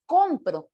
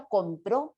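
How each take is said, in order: First: Compro with the stress on the first syllable, COM-pro. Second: Compró with the stress on the last syllable, com-PRÓ. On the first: (compro con acento en com) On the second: (compró con acento en pró) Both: Shown as a demonstration. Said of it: "si yo muevo el acento".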